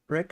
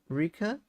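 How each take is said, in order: First: The first vowel sounds like 'eh'. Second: The first vowel sounds like 'ee'. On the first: "Like eh" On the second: "or like e"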